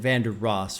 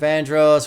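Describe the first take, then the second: First: The name is said with three syllables, Vander Ross. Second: The name is said as two syllables, Vandross. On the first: The speaker calls it right. "he said [name]" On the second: The speaker calls it wrong. "I said it wrong"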